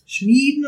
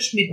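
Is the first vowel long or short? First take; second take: long; short. First: The first vowel is long. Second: The first vowel is short.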